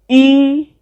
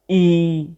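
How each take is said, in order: First: The word is said on a high pitch. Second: The word is said on a low pitch. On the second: "let's try the three tone marks against E, do, re, mi"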